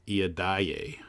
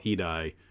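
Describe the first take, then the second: First: Each vowel is pronounced as a separate sound. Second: The vowels are merged into fewer sounds. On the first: This is how Japanese speakers say it. "might actually be" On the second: This is how English speakers say it. "what in English we call Edie"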